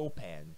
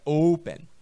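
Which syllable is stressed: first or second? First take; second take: second; first. First: The stress is on the second syllable. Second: The stress is on the first syllable. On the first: The speaker calls it wrong. "não é open" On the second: The speaker calls it right. "a pronúncia está aqui na primeira sílaba"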